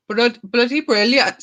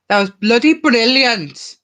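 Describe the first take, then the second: First: Higher, slow Welsh try that slips toward Indian; attempted Welsh lilt on "bloody brilliant", coming out Indian; failed Welsh accent. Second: Put-on higher, louder, slow Welsh accent on "bloody brilliant"; lilting Welsh accent, sing it out slowly. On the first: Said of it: "See, it sounds Indian". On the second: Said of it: "I think that was a good Welsh accent".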